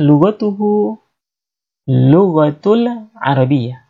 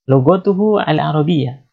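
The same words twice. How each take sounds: First: Slow first take. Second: Said in the usual way. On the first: Shown as a demonstration. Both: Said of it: "Misalkan kita mengatakan".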